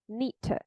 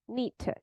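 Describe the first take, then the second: First: The d and t merge into one sound. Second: The same.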